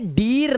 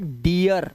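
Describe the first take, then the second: First: A plain long ee with no uh sound. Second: A long ee followed by an uh sound. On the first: The speaker calls it wrong. "तो अब ये डीर नहीं है" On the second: The speaker calls it right. "आर लगने से अ की आवाज भी आ जाती है, तो ये हो जाता है डियर"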